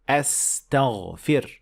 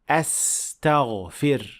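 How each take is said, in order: First: The second consonant is a clear 's' sound. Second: The same.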